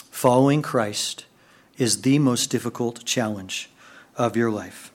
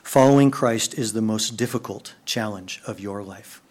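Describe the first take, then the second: First: "Following Christ" slow, each phrase weighed; slow it down on "is the most difficult challenge"; slow emphatic repeat. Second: Said in the usual way. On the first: Shown as a demonstration. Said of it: "slow repeat for emphasis". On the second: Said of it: "repeated slower".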